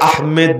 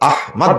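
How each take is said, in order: First: The second syllable is said as 'med'. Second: The second syllable is said as 'mod'. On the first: The speaker calls it wrong. "এটাকে আহমেদ বলা যাবে না" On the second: The speaker calls it right. "আহমদ বলতে হবে"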